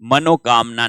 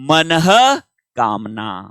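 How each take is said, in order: First: The middle is joined with an 'o' sound. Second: The middle has an 'ah' with a breathy release. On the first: The speaker calls it wrong. "मनोकामना नहीं" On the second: The speaker calls it right.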